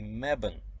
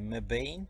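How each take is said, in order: First: The final syllable has no long A sound. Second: The final syllable has a long A sound. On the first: This is how local people say it. "All locals say Mebane" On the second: This follows the spelling rules. "Should be Mebane because E at the end makes uh, A long"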